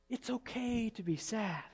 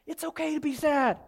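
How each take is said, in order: First: Soft, slow and tender; gentle reassurance. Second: High, insistent preacher's declaration; emphatic reassurance. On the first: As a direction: let it sink in quietly. Same reassurance repeated gently. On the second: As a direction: proclaim it with a raised pitch. Emphatic first take, then softened. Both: Real, not acted.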